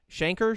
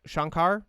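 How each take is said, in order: First: "Shankar" with a flat a like "shank", r-coloured ending "SHANK-er"; Shankar said one way. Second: "Shankar" with open a's, "SHAHN-kahr"; Shankar said the other way. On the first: Host testing a producer's name: "Shankar" as SHANK-er. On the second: Host testing a producer's name: "Shankar" as SHAHN-kahr. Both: Shown as a demonstration. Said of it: "It's either Adi Shankar or Adi Shankar".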